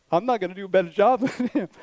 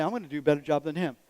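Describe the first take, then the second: First: Quick retold climb-down, breaking into laughter; self-mocking, laughing through the words; laughing retreat. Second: Low, quick retold boast; lightly acted self-assurance, pitched down; understated boast. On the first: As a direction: laugh at yourself while retelling how you backed down. Humbled retelling, laughing at himself. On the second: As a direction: mutedly retell a cocky claim, lower and quicker. Retelling his own earlier boast.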